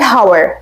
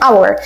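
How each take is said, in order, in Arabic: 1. الكلمة تبدأ بصوت h مسموع. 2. الكلمة تبدأ بحرف علة، ولا يوجد صوت h. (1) "هاور غلط كنطق" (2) "لان الاتش هنا يعني سايلنت مش بنقولها"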